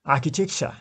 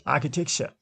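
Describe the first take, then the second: First: "architecture" with the weight on AR: AR-chi-tec-ture; stress on first syllable. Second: "Architecture" with AR hit hardest: AR-chi-tec-ture; stress on first syllable. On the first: Teacher models "architecture" for students, first syllable stressed. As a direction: lean on the opening AR of "architecture". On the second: Teacher repeats "Architecture" to show first-syllable stress. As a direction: punch the AR of "Architecture", rest light. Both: Shown as a demonstration. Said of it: "first syllable is stressed".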